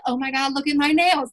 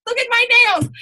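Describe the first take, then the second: First: Said in the usual way. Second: High, loud squeal of horror at her nails; mock shocked squeal. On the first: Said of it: "And I was like". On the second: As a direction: shriek it in mock dismay, much higher. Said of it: "I was like".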